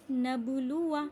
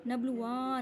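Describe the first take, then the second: First: "नबलुआ" chanted with long loo, short wa; silent alif. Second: "नबलुआ" with a long final waa; wrongly stretched alif. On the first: Teacher showing correct reading, "नबलुआ" with short ending. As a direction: end "नबलुआ" on a short vowel. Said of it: "अलिफ को नहीं पढ़ा". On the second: Teacher showing the wrong reading, "नबलुआ" with long ending. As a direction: drag out the end of "नबलुआ". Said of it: "नबलुआ नहीं कहा". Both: Shown as a demonstration.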